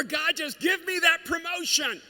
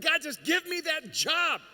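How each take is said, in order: First: Much higher, louder and slow, crying out to God; shouted pleading prayer. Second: Pleading prayer. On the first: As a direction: beg at the top of your voice. Imitating a prayer for a promotion. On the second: Imitating a prayer for a job. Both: Retold or imitated.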